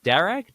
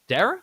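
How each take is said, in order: First: The name ends with a hard g sound. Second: The name ends in a vowel sound. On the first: The speaker calls it wrong. "How do you pronounce it?" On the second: The speaker calls it right. "you don't pronounce the G H at the end"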